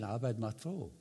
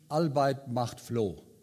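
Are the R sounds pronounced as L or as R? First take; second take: R; L. First: Each R sound is pronounced as a normal R. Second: Each R sound is replaced by an L sound.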